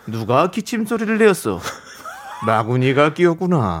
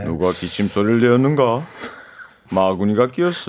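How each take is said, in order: First: Commanding king voice, a touch laughing; lightly voiced tyrant king; Gungye impression. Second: Low, deep tyrant king voice; lower, heavier take on the king; Gungye impression. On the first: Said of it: "궁예". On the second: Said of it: "서로 오디션을".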